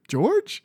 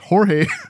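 First: The name sounds like the English name George. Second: The name does not sound like English George. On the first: The speaker calls it wrong. "I was pronouncing it George" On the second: The speaker calls it right. "No, it's Jorge"

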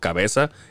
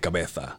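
First: The z sounds like an s, Latin American style. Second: The z sounds like th, Spain style.

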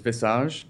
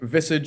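First: The word is said with a French pronunciation. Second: The word is said with an English pronunciation. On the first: "the French pronunciation is visage" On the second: "visage is the English pronunciation of it"

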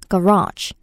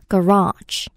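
First: The stress is on the second syllable. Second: The stress is on the second syllable.

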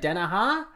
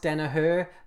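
First: The name is said in a casual Australian way. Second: The name is said in its standard way. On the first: The speaker calls it wrong. "where I always say" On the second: The speaker calls it right. "I actually know it's Danahar"

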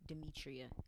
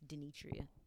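First: The second syllable starts with an m sound. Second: The second syllable starts with an n sound. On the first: The speaker calls it wrong. "they still call me Demetria" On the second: The speaker calls it right. "and it's Denetria"

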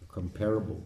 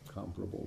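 First: The stress is on the second syllable. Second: The stress is on the first syllable. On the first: This is how many people commonly say it. The speaker calls it wrong. "people say" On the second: This is the correct pronunciation. The speaker calls it right. "is the right pronunciation"

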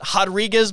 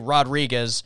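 First: The name begins with a breathy H sound. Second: The name begins with a hard R sound. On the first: "that's like an H at the beginning" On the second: "like hard R"

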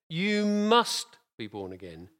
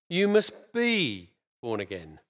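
First: The stress is on "must". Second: The stress is on "be".

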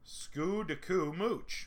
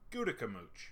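First: The name is said slowly, syllable by syllable. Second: The name is said quickly as one word. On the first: "I'm going to sound this out" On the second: "now I'm going to say it fast"

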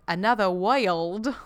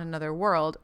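First: The last word is said sounding like 'wild'. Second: The last word is said with its usual vowel.

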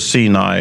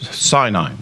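First: It is said with the Hebrew pronunciation. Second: It is said with the English pronunciation. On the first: "as opposed to Sinai and it slurring over to senile" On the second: "I'm going to use the old English one"

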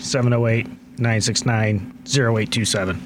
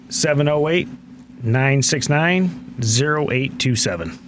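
First: The number is read at a normal pace. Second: The number is read more slowly.

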